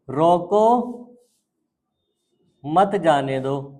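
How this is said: The pause comes right after the first word.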